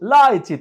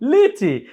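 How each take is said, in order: First: The first vowel sounds like 'eye'. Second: The first vowel sounds like 'ee'.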